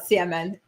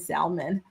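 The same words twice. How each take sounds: First: The L sound in the word is silent. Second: The L sound in the word is pronounced. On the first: The speaker calls it right. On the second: The speaker calls it wrong.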